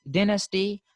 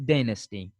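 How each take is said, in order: First: Dynasty as "DIN-asty"; short i in dynasty; British pronunciation. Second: Dynasty as "DYE-nasty"; American pronunciation. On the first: Teacher showing how Britishers say it, dynasty as "DIN-asty". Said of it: "the Britishers say". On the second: Teacher contrasting the Americans, dynasty as "DYE-nasty". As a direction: eye diphthong in dynasty. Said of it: "while the Americans say". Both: Shown as a demonstration.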